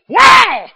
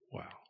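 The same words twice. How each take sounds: First: It is said loudly, with great excitement. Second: It is said flatly, without excitement. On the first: The speaker calls it right. "you just feel so good you want to say it backwards" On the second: The speaker calls it wrong. "I don't think wow should be said that way"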